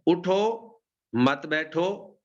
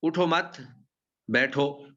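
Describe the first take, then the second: First: Higher اٹھو, a stop, then مت بیٹھو as one phrase; pause after اٹھو. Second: اٹھو مت run together, a stop, then بیٹھو alone; pause after مت. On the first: Teacher shows the order to rise, pausing after اٹھو. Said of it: "آپ تھوڑا سا ٹھہر جائیں". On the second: Teacher shows the opposite meaning, pausing after مت before بیٹھو. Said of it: "اور اگر آپ یہ کہیں". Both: Shown as a demonstration.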